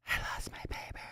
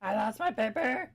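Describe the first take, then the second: First: Whispered under breath; breathy unvoiced whisper. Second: Said in the usual way. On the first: Real, not acted. Whispered repeat of lost paper.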